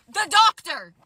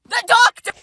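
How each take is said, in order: First: Said in the usual way. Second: "The doctor" said higher and louder the second time; emphatic repeat. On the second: Real, not acted. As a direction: punch "The doctor" in disbelief.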